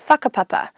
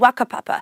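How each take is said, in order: First: It is said in the usual standard pronunciation. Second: It is said in the Whanganui local dialect. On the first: "normally said as" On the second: "my local dialect from Whanganui"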